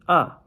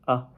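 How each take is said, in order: First: The pitch dips down and then rises. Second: The syllable is short and light, without contour. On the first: "third tone, going down and up" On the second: "neutral tone ... It's very light"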